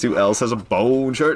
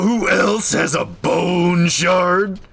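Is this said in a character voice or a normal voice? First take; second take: normal voice; character voice. First: It is said in a normal speaking voice. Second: It is said in a put-on character voice. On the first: The speaker calls it wrong. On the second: The speaker calls it right.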